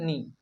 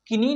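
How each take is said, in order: First: It starts directly with the n sound. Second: A k sound is heard before the n. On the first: The speaker calls it right. "नी पढ़ेंगे" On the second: The speaker calls it wrong. "किनी नहीं पढ़ेंगे"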